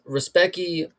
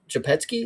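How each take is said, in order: First: The name is said with English-style sounds. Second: The name is said with Polish-style sounds.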